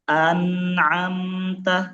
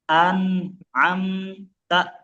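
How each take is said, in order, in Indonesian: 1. Suku katanya mengalir menyambung tanpa jeda. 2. Suku katanya dipisahkan oleh jeda kecil. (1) "coba dibuat mengalir saja" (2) "itu ada jeda tuh"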